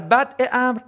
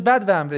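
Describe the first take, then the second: First: The first word ends in a glottal stop. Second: The first word ends in a 'v' sound. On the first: It means the beginning of the matter. The speaker calls it right. "البته شما یه جایی بگی در بدع امر" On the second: It means the desert of the matter. The speaker calls it wrong. "میگن منظور بدو امر دیگه"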